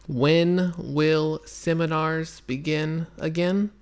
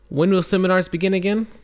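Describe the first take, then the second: First: It is read very slowly, word by word. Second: It is read at a normal speed.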